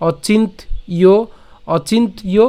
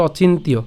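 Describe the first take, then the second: First: "অচিন্ত্য" split as ochint, then iyo; drawn-out teaching split of "অচিন্ত্য"; broken-down pronunciation. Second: "অচিন্ত্য" run together as ochintiyo; connected "অচিন্ত্য", no gap before iyo; joined pronunciation. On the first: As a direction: slowly say অচিন্ত্য with a gap before iyo. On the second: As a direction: say অচিন্ত্য as one unbroken word. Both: Shown as a demonstration. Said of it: "অথবা একসাথে".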